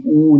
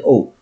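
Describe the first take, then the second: First: "oo" as one rounded vowel, like boot; oo sound. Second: "O" as the plain letter name, oh; O sound. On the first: Teacher explains the double letter, oo sound. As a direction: say "oo" as a single long u. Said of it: "I say oo, not O". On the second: Teacher names the sound not to use, O sound. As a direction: say "O" as oh, the sound to avoid. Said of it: "not O". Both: Shown as a demonstration.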